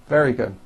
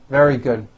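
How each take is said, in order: Both takes have the same delivery.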